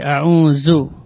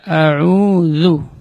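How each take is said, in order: First: The dh sound leaks extra breath. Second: The dh sound flows without extra breath. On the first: The speaker calls it wrong. "tidak boleh a'udzu" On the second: The speaker calls it right. "tapi dibaca a'udzu"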